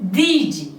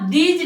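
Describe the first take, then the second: First: The word ends with a 'z' sound. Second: The word ends with a 'j' sound. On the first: The speaker calls it right. "ज के नीचे मैंने एक बिंदी लगाई है" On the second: The speaker calls it wrong. "इसे आप दीज नहीं बोलेंगे। अगर आप ज बोलते हैं तो ये गलत हो जाएगा"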